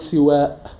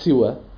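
First: The first vowel is i; the final vowel is long. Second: The first vowel is i; the final vowel is short. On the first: "كسر السين مع مد الألف" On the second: "كسر السين مع قصر الألف"

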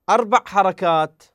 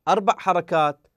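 The two takes are said the same way.

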